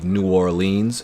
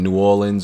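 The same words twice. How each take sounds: First: The city name is pronounced in an overly precise way. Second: The city name is pronounced in a relaxed everyday way.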